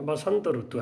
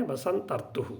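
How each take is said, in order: First: Said in the usual way. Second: "ऋतुः" with the final visarga breathed out, "बसंत ऋतुः"; careful Sanskrit pronunciation. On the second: Shown as a demonstration. Sanskrit teacher showing students how to say "बसंत ऋतुः" with its visarga. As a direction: sound the visarga at the end of "ऋतुः" like a soft echoing h. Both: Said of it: "लेकिन इसका उच्चारण कैसे होता है?".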